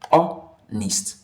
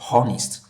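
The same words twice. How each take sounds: First: The word begins with a vowel, no h sound. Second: The word begins with an audible h sound. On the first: The speaker calls it right. "the right pronunciation of this word is honest. ... The H here is silent" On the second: The speaker calls it wrong. "and not honest"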